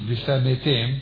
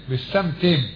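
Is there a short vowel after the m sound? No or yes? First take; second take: yes; no. First: A short vowel follows the m sound. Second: The m closes its syllable with no vowel. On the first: The speaker calls it wrong. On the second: The speaker calls it right.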